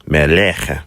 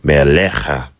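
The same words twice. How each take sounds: First: Meleche ending in a short eh, not ah; wrong ending. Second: Melecha with the final cha stressed and open ah; emphasis on cha. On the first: Teacher shows the mistake to avoid, eh ending. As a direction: clip meleche with a flat eh ending. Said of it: "I don't want it to be meleche". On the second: Teacher shows the correct ending to students, stressed cha. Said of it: "I put emphasis on that cha". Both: Shown as a demonstration.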